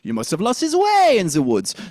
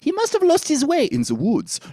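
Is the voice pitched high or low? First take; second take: low; high. First: The voice is pitched low. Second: The voice is pitched high. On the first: "it can be down" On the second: "It can be up"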